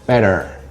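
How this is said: The final R is pronounced. "an American would say better. Uh, they roll the R a little bit"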